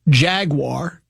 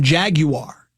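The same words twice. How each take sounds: First: The word is said with an American pronunciation. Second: The word is said with a British pronunciation. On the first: It refers to the animal. "gets the American pronunciation" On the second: It refers to the car. "gets the British pronunciation"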